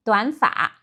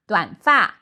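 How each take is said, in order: First: Taiwan-style 短发, third-tone 发. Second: 短发 with 发 falling. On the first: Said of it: "pronounced as a third tone". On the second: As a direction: drop the tone on 发 in 短发. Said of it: "pronounced as a falling tone". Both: Shown as a demonstration.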